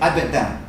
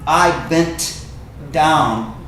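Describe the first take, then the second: First: The phrase is said fast and run together. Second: The phrase is said slowly and carefully. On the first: "if you say it fast, most people say it fast" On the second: "You could say"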